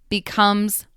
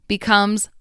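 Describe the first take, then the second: The two takes are said the same way.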